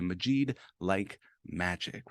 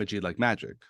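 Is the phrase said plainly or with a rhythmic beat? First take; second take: rhythmic; plain. First: It is said with a strong, rhythmic beat. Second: It is said in an even, ordinary rhythm. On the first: "when you say it with a beat, it makes it easy to repeat" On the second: "instead of saying I'm Majid like magic"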